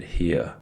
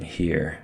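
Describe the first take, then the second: First: Southern "here" with the r dropped; Southern accent. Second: Said in the usual way. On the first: Shown as a demonstration. Narrator shows Mama's worried speech, Southern accent on "here". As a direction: say "here" Southern style, as "hee-uh". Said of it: "started talking Southern style". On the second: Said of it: "Instead of saying".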